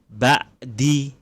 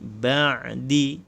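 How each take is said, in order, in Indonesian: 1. Konsonan tengahnya adalah hamzah. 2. Konsonan tengahnya adalah desah tenggorokan yang lembut. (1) "kalau pakai hamzah jadi ba'di" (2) "Tapi kita ain ba'di"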